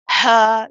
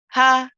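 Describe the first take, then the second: First: The breath is pushed out with exaggerated force. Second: The breath is light and unforced. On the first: The speaker calls it wrong. "no extra exaggeration or pushing of the breath. We don't say ha, ha like this" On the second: The speaker calls it right. "It's a light letter"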